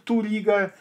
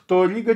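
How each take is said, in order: First: The first vowel sounds like a U. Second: The first vowel sounds like an O. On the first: The speaker calls it wrong. "чем к Турига" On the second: The speaker calls it right. "в произношении оно ближе к Торига"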